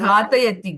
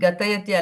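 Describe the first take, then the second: First: The first vowel is long. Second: The first vowel is short. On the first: The speaker calls it right. "ಘಾ ದೀರ್ಘ ಇದೆ" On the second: The speaker calls it wrong. "ಗತಯತಿ ಅಲ್ಲ"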